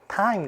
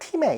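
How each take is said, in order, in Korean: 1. 긴 'ai' 모음이고, 끝의 'e'는 묵음입니다. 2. 짧은 'i' 모음이고, 끝의 'e'는 소리 납니다. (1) "이가 소리가 나지 않고" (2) "time을 팀에 이렇게 읽는 친구들도 있었는데 아니죠"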